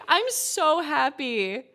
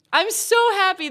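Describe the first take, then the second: First: Slow happy. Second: High, louder burst of joy; overjoyed. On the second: Streamer gushing to chat over fixed Xbox. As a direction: squeal it out with delight. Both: Real, not acted.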